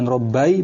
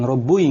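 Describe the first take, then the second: First: The double b is followed by an a vowel. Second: The double b is followed by a u vowel. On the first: "bukan Robbai" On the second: "bukan Robbui, enggak boleh"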